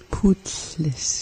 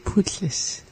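First: Said in the usual way. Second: Putlis whispered softly with a falling end; playful whisper. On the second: Shown as a demonstration. Learner savoring the word, whispering Putlis. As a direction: breathe out Putlis as a hushed whisper. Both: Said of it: "It's just so fun to say like that".

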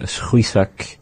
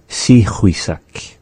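First: "schuisak" with s running straight into the ch; first pronunciation variant. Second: "si chuisak" with a full "see" syllable first; alternative pronunciation. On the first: Teacher showing one of two heard ways, "schuisak" in two syllables. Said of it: "two ways that I've heard it". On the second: Teacher giving the other way, slow "si chuisak" with a vowel after s. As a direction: stretch "si chuisak" slowly into three syllables. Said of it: "the other way that we can say it". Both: Shown as a demonstration.

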